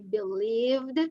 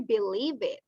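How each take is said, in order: First: The ending adds no extra syllable. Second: The ending is an extra unstressed syllable. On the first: The speaker calls it right. "we say believed" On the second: The speaker calls it wrong. "We don't say believe it"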